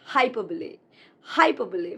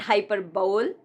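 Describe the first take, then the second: First: "hyperbole" as hy-PER-buh-lee; correct hyperbole. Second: "hyperbole" as HY-per-bowl; mispronounced hyperbole. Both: Shown as a demonstration. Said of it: "It's not hyperbole".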